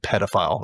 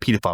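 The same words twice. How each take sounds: First: It is said the speaker's own local way. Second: It is said the way the other country says it. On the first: This is how the speaker's own country says it. "We say pedophile. It's a little different" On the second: This is how the other country says it. "we don't say pedophile"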